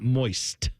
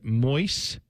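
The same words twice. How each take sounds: First: The final t sound is pronounced. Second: The final t sound is dropped. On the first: "not moist, with a T" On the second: "used to say the word moist"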